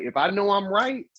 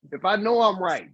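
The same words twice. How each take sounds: First: "if I know I'm right" with a rise on RIGHT; emphatic setup, lifting at "right". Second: "if I know I'm right" repeated firmly, falling on RIGHT; emphatic restatement, landing on "right". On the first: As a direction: stress the phrase, leaving "right" hanging upward. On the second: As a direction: stress "I'm right" and bring it down to a close. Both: Real, not acted. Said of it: "I'm glad you put emphasis on that".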